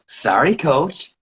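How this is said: It is said in a disrespectful, sarcastic tone.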